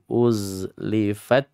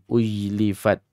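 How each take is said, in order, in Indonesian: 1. Huruf tengahnya bunyi Z. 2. Huruf tengahnya bunyi J. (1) "zai sukun" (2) "Bukan ujlifat"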